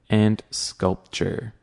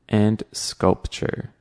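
The two takes are said the same way.

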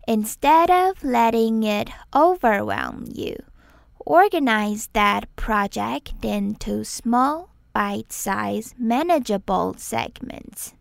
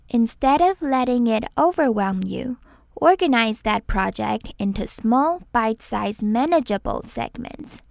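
First: It is said slowly. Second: It is said at normal speed.

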